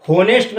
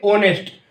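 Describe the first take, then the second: First: "होनेस्ट" with a clearly sounded h at the start, ho-nest; होनेस्ट with an audible h, the way the teacher says not to. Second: "ऑनेस्ट" with no h, opening straight on an aw vowel; ऑनेस्ट starting on the open aw sound, h silent. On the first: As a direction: say होनेस्ट, breathing out the h before the o. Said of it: "एच silent है". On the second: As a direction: say ऑनेस्ट as aw-nest, dropping the h completely. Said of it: "क्या बोलोगे". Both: Shown as a demonstration.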